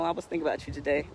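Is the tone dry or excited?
dry. It is said flatly, with dry low energy. The speaker seems indifferent to the person. The speaker calls it wrong. "not like that dry"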